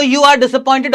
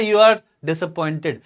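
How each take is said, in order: First: Said in the usual way. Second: Slow, slightly subdued aside; over-the-shoulder remark. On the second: Acted. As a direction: lightly act a line tossed back over the shoulder. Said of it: "over his shoulder ऐसे बोलता है". (कंधे के ऊपर से धीमे-धीमे कही बात)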